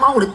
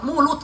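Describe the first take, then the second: First: The word is said as 'Maulid', ending in d. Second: The word is squeezed into 'mulut', ending in t. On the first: The speaker calls it right. "bukan Maulid" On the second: The speaker calls it wrong. "Mulut katanya"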